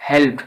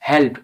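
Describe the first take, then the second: The two takes are said the same way.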